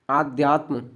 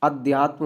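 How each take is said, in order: First: आध्यात्म read with a long आ at the start; आध्यात्म said as aadhyaatm with a long first vowel; wrong spelling read out. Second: अध्यात्म with a short अ at the start; अध्यात्म said as adhyaatm with a short first vowel; correct form. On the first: Teacher reading the misspelled form आध्यात्म. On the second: Teacher giving the correct spelling अध्यात्म. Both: Shown as a demonstration. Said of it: "अध्यात्म होता".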